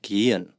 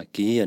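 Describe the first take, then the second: First: Gehen with a silent h, the vowels gliding together; 正确发音 gehen，h 不发音; correct pronunciation. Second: Gehen with the h sounded out in the middle; the Taiwanese learner's gehen, breathing an h between the vowels; 错误发音 gehen，把 h 念出来; wrong pronunciation. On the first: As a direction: say gehen cleanly with no h sound. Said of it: "这个哈就不要发出来才正确". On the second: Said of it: "把gehen念成gehen". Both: Shown as a demonstration.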